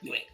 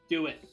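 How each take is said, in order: First: It is said in a Sidious impression. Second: It is said in a normal voice.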